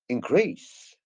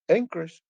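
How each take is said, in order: First: The stress is on the last syllable. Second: The stress is on the first syllable. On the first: It is used as a verb. "that is a verb" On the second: It is used as a noun. "that means a noun"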